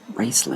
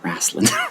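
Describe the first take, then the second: First: The first vowel sounds like 'race'. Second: The first vowel sounds like 'wrest'. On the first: The speaker calls it right. "It's Raceland" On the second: The speaker calls it wrong. "not Wrestling"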